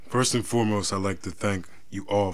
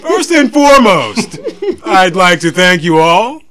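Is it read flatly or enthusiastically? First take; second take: flatly; enthusiastically. First: It is read in a flat, plain way. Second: It is read with exaggerated enthusiasm.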